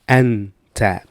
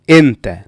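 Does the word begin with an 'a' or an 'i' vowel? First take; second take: a; i. First: The word begins with an 'a' vowel. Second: The word begins with an 'i' vowel. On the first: This is the formal standard form. "in the formal Arabic language, we say ah" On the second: This is the everyday spoken form. "In the spoken language, we usually say Inta"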